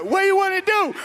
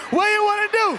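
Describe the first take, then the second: First: Loud, high fight taunt; mock challenge. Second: High, loud fight taunt; shouted challenge. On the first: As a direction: dare him to fight, way up high. Retold challenge before fight. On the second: Retold or imitated. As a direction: yell the dare louder. Repeated louder challenge.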